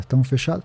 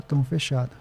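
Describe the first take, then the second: First: "Tamo fechado" rising at the end; asking for confirmation. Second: "Tamo fechado" softer, falling at the end; confirming the deal. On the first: Renato seals the pact with Dedé, questioning rise on "Tamo fechado". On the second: Dedé confirms the pact, soft falling tune on "Tamo fechado". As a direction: close it off with a settled "Tamo fechado". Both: Retold or imitated. Acted agreement, question then answer.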